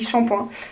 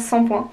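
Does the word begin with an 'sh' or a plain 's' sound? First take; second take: sh; s. First: The word begins with an 'sh' sound. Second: The word begins with a plain 's' sound. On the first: The speaker calls it right. "ça s'écrit S H, ça se dit shampoing" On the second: The speaker calls it wrong. "Ça se dit pas sans point"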